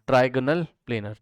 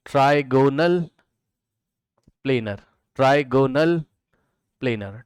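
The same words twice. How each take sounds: First: Said in the usual way. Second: trigonal, long pause, then planar; teacher spelling out trigonal planar word by word; slow dictation. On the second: Shown as a demonstration. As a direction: draw out trigonal syllable by syllable and set planar apart. Teacher dictates new term slowly.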